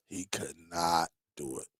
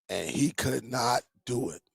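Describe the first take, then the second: First: Much lower, much softer trailing repeat; fading echo. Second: Said in the usual way. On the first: Real, not acted. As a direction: let the repeat sink away under your breath.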